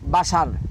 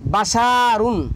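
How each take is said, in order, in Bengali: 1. শব্দটি -un দিয়ে শেষ হয় না। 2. শব্দটি পূর্ণ -un দিয়ে শেষ হয়।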